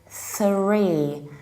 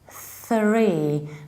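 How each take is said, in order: First: It begins with a th sound, tongue between teeth. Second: It begins with a th sound, tongue between teeth.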